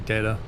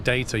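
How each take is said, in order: First: The T is pronounced soft and rounded off. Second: The T is pronounced crisp and clear. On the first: "You kind of soften the T" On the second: "Instead of saying data"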